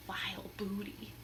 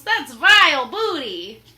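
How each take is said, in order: First: Spooky whispered title. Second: Loud sneering pirate verdict; pirate scorn. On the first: Real, not acted. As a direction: breathe the title mysteriously. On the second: Acted. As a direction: spit out the words.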